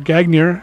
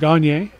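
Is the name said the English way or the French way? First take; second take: English; French. First: The name is said with an English pronunciation. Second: The name is said with a French pronunciation.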